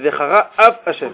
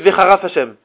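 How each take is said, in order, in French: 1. Les mots sont lus en séparant chaque mot. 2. Les mots sont lus vite et enchaînés. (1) "c'est Vechara Af Hashem" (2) "Quand on lit très vite, ça peut donner Vechara Fashem"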